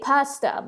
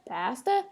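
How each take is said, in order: First: The word is said in the non-Canadian way. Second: The word is said in the Canadian way. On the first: "I say pasta" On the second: "the Canadians say pasta"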